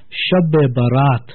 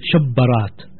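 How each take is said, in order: First: A short 'e' vowel joins the two parts. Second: The two parts run together with no vowel. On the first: This is the original form of the term. The speaker calls it right. "the original word is Shab-e-Barat" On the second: This form leads to misunderstanding the term. The speaker calls it wrong. "because we are Indian origin, so we pronounce the word Shabbarat"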